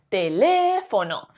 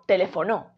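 First: The stress is on the second syllable. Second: The stress is on the fourth syllable. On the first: The speaker calls it right. "Si fuese le" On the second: The speaker calls it wrong. "Y si fuese no"

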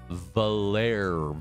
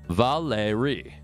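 First: It is said without an added final vowel. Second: It is said Japanese-style, with an added final vowel. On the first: "I'm going to try Valer" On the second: "I'm going to pronounce it like Japanese. And in Japanese it'd be Valeri"

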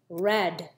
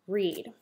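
First: The vowel is short, like in 'red'. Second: The vowel is long, like in 'reed'. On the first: The action happened in the past. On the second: The action happens now or habitually.

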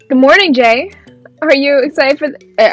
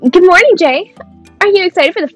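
First: It is read in the speaker's plain voice. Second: It is read in a put-on character voice.

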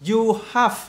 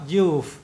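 First: It is said as two full separate words. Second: It is said as one contracted syllable.

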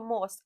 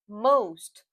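First: The vowel is a plain, short sound. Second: The vowel is a drawn-out o sound. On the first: The speaker calls it wrong. "не просто most" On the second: The speaker calls it right. "а o, most"

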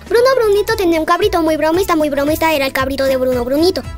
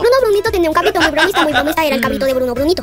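First: It is said at a faster pace. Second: It is said at the fastest pace.

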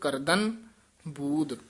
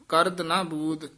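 First: The word is said joined as one unit. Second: The word is broken apart into two pieces. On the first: The speaker calls it right. "ਕਰਦਨ ਪਾਠ ਇਕੱਠਾ ਹੀ ਕਰਨਾ ਹੈ" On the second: The speaker calls it wrong. "ਇਹ ਇਸ ਤਰ੍ਹਾਂ ਨਹੀਂ ਕਰਨਾ"

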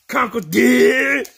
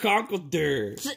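First: The word dirt is given strong emphasis. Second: The word dirt is not given extra emphasis. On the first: The speaker calls it right. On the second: The speaker calls it wrong.

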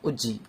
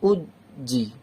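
First: The syllables are rushed together with no pause. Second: There is a long pause between the syllables. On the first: "উজ্জি উজ্জি এভাবে তাড়াতাড়িও করবেন না" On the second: "উদ জি মানে বেশি এভাবে পড়বেন না, উদ জি বেশি থামবেন না"

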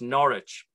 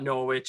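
First: The W in the middle is almost silent. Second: The W in the middle is clearly pronounced. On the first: This is how it is said in England. The speaker calls it right. "it's Norwich. The W is almost silent" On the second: This is how Canadians in Ontario say it. The speaker calls it wrong. "it's not Norwich"

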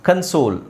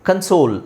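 Both takes have the same delivery.

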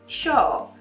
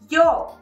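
First: It is said in an Argentine-Uruguayan accent. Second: It is said in the speaker's own accent.

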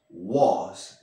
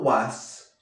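First: The vowel is rounded, closer to 'o'. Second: The vowel is an open 'a' sound. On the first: The speaker calls it right. "esa A, un poco más como O" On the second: The speaker calls it wrong. "no was"

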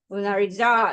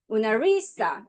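First: The stress is on the fourth syllable. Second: The stress is on the third syllable. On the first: "네 번째" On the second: "세 번째"

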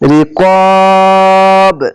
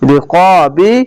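First: The word ends on a bounced b sound. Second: The word ends with a short i vowel. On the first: The speaker calls it right. "এভাবে কলকলা হয়ে যাবে" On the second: The speaker calls it wrong. "এভাবে না পড়ে"

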